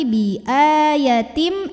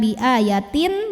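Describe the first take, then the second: First: The word ends with a held, nasal m sound. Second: The word ends with a clear n sound. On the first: The speaker calls it right. "tapi bi ayatim, m sambil tahan bunyi m-nya" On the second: The speaker calls it wrong. "bukan bi ayatin, bukan n lagi"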